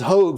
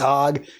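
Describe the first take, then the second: First: The vowel is a long 'oh' sound. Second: The vowel is a short 'o' sound. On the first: The speaker calls it wrong. "I thought his name was Hogue" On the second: The speaker calls it right. "but it is Hog"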